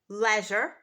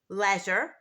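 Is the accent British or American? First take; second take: British; British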